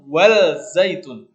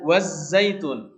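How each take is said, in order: First: The L is clearly pronounced before the Z. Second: The L merges into a doubled Z sound. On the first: The speaker calls it wrong. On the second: The speaker calls it right.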